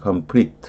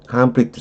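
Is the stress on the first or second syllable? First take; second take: second; first. First: The stress is on the second syllable. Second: The stress is on the first syllable. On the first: It is a verb meaning to clash. "동후족이" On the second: It is a noun meaning a fight. "싸움 이럴 때는 앞에 명전이죠"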